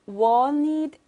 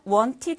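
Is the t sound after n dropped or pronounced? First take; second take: dropped; pronounced. First: The t after n is dropped. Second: The t after n is clearly pronounced. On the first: "wanted 이렇게 했어요" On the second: "이 남자가 wanted 했나요? 그렇게 안 했습니다"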